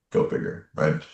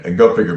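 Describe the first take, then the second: First: Breathed almost silently; whispered aside. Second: Said in the usual way. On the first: Real, not acted. Marveling to himself about the same name, whispered. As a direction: whisper it to yourself in wonder.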